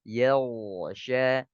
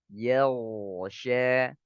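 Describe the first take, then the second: No difference in how they are said.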